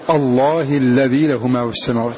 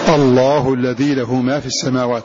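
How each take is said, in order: First: Allah ends with an i vowel. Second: Allah ends with a u vowel. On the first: This follows the reading of the other reciters. "بكسر الهاء" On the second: This follows the reading of Nafi and Ibn Amir. "برفع الهاء"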